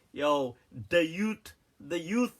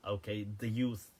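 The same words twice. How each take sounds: First: Slow drawled "Yo, the youth" in a mock street slang accent. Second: Said in the usual way. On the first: Shown as a demonstration. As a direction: tease the mispronunciation with a street slang accent, slowly. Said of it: "I'm not saying that with an accent like". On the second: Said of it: "The youth is one word".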